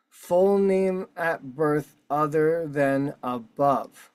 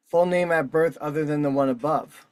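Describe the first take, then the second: First: Slowly stretched-out re-reading, word by word; slow, deliberate emphasis. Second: Said in the usual way. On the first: Real, not acted. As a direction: spell out every word for significance. Deliberate emphatic re-reading of form field.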